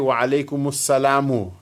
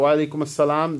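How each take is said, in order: First: The last word ends with an 'u' vowel. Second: The last word ends on a bare 'm' sound. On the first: "you should say wa alaykum assalamu" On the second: "stop at wa alaykum assalam, then there's a sukoon on the meme"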